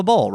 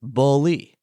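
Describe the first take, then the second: First: "bowl" as the everyday one-syllable word; "bowl", one syllable with no ee on the end; pronounced as one syllable. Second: "bully" said BO-lee, in two beats; "bully" as boh-lee, ending on a clear ee; two syllables. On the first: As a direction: say "bowl" in a single beat, rhyming with hole. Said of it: "should sound like the word bowl". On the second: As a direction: break "bully" into BO plus a long LEE. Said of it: "Instead, it's two symbols". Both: Shown as a demonstration.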